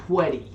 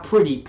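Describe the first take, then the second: First: "pwetty" with w for r; says w for r. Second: Said in the usual way. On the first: Shown as a demonstration. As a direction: say "pwetty" like Elmer Fudd. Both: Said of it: "Not pretty, pwetty".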